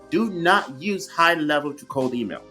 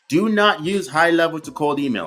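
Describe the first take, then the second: First: The sentence is spoken at a noticeably slower pace. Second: The sentence is spoken at a normal, quicker pace.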